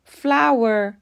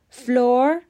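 First: The vowel sounds like the word flower. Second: The vowel sounds like the word floor. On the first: The speaker calls it right. "تلفظ درست" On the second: The speaker calls it wrong. "غلطه"

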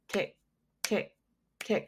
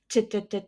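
First: The ticks are steady and calm. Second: The ticks are urgent and pressing. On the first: It sounds like an ordinary clock. "a clock is like" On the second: It sounds like a countdown to something. "It sounds more urgent to me than a clock"

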